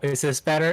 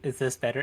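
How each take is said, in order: First: The voice is clearly louder. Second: The voice is raised only slightly. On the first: "How about now? ... Is this louder?" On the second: "I can just raise my voice just a little bit"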